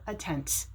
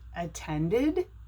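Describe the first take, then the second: First: The ending adds no extra syllable. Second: The ending is an extra 'id' syllable. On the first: The speaker calls it wrong. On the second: The speaker calls it right.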